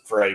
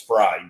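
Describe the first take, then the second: First: The name is said with the vowel of 'fray'. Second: The name is said with the vowel of 'fried'. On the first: The speaker calls it wrong. "a lot of people pronounce it Frey" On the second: The speaker calls it right. "but it's Fried"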